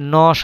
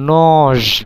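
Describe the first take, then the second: First: The word ends in a voiceless s sound. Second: The word ends in a voiced z sound. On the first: The speaker calls it right. "নজ না হয়ে নস হচ্ছে" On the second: The speaker calls it wrong. "এখানে উচ্চারণ হওয়ার কথা ছিল নজ"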